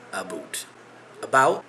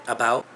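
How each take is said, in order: First: "about" said as "a-boot"; mocked Canadian ABOUT. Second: Said in the usual way. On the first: Shown as a demonstration. Showing viewers the myth of Canadian speech, "about" as "a-boot". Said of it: "common misconception is that we as Canadians pronounce". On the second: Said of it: "we as Canadians pronounce the word about".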